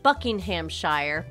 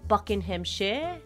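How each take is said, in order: First: The ending is said in full, like the spelling. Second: The ending is said short and reduced. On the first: This is how an outsider reads the name. The speaker calls it wrong. "I have to say it this way because it's the only way I know how to spell it" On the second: This is how a local says the name. The speaker calls it right. "but I know you say it Buckinghamshire"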